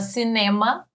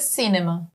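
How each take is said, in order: First: The stress is on the second syllable. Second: The stress is on the first syllable. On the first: This is how Portuguese speakers say it. "a gente fala cinema" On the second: This is how English speakers say it. "em inglês é cinema"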